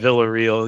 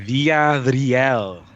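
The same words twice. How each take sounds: First: The name is said with American English sounds. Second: The name is said with Spanish sounds. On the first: The speaker calls it wrong. "that's the Americanized version. Even I'm saying it wrong" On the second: The speaker calls it right. "it would be"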